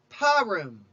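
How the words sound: It is pronounced the Western Jewish way. "Among Westerners, it is often called Purim"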